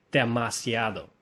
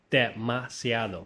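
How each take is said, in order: Both takes have the same delivery.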